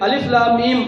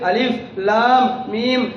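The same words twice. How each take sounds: First: It is recited smoothly without hesitation. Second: It is recited haltingly with stammering breaks. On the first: The reciter earns thirty rewards. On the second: The reciter earns twenty rewards per letter.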